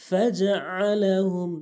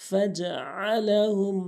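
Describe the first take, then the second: No difference in how they are said.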